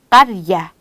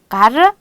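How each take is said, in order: First: The r sound is stronger and lengthened. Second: The r sound is short and plain.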